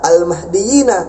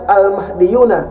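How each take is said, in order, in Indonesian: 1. Akhirannya dilafalkan dengan vokal 'i'. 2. Akhirannya dilafalkan dengan vokal 'u'. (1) "yang benar adalah al-mahdiyina" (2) "Ini salah"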